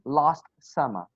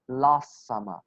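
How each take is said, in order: First: The T sound in 'last' is clearly pronounced. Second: The T sound in 'last' is dropped. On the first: The speaker calls it wrong. "You do not say last summer" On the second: The speaker calls it right. "You just say last summer"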